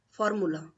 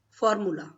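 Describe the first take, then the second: No difference in how they are said.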